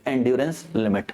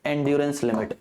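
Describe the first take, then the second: First: "endurance limit" said very slowly and lower, each word stretched; drawn-out answer. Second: Said in the usual way. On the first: Shown as a demonstration. Teacher stressing the answer for students, "endurance limit" slow and low.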